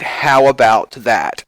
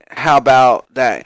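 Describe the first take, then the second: First: Every consonant is pronounced clearly in each word. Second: Several consonants are dropped and the words run together. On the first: The speaker calls it right. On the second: The speaker calls it wrong.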